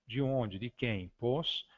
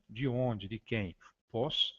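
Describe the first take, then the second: No difference in how they are said.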